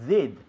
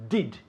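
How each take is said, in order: First: The D is made with the tongue lowered. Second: The D is made with the tongue raised. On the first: The speaker calls it wrong. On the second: The speaker calls it right. "the sound of the D is with the tongue up"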